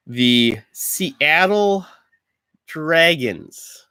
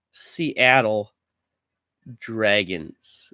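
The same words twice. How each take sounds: First: Slow, higher sports announcer call. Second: Said in the usual way. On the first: Pretend. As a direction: stretch the name out grandly. Announcing team names.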